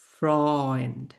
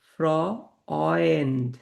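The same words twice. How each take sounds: First: "ফ্রয়েন্ড" joined up with a held "oy"; German pronunciation. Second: "ফ্রয়েন্ড" very slow, split as fro-oynd; slow German pronunciation. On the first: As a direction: say "ফ্রয়েন্ড" as one word, froynd. ("ফ্রয়েন্ড" একটানা, অয় ধ্বনিতে) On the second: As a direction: stretch "ফ্রয়েন্ড" to show the "oy". ("ফ্রয়েন্ড" খুব ধীরে, অয় আলাদা করে) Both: Shown as a demonstration. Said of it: "এটা অয় উচ্চারণ হচ্ছে".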